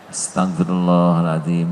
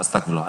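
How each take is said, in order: First: It is said slowly and with heartfelt feeling. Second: It is rattled off hurriedly and carelessly.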